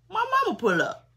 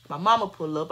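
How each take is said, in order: First: High, loud disbelief at mama pulling up; can't believe mama just pulled up; shocked. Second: Said in the usual way. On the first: Retold or imitated.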